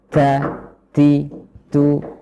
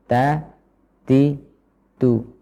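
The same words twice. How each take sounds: First: The t sounds have heavy breath after them. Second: The t sounds have light breath after them. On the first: The speaker calls it wrong. "dengan hembusan udara terlalu banyak juga kurang tepat" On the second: The speaker calls it right. "sedengan atau sedang saja"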